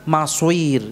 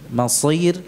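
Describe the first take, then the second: First: The s is followed by a rounded w sound. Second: The s is thick and heavy. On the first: The speaker calls it wrong. "Tidak pula maswir" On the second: The speaker calls it right. "Usahakan wa bi'sal masir"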